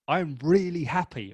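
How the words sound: It is said warmly, with real feeling. The listener believes the speaker is happy. The speaker calls it right. "that happiness, honor the word happiness"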